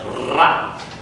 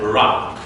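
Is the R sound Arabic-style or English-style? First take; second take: Arabic; English. First: The R is the standard Arabic tapped sound. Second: The R sounds like an English R. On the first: The speaker calls it right. "they cannot pronounce it as Ra" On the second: The speaker calls it wrong. "Same as the R in English"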